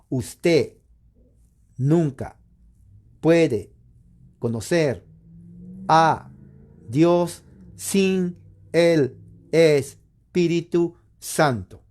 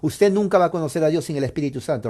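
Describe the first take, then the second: First: It is said slowly and deliberately. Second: It is said at normal speed.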